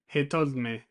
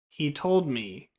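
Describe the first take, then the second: First: 'He' and 'me' have a short i vowel. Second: 'He' and 'me' have a long ee vowel. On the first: The speaker calls it wrong. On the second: The speaker calls it right.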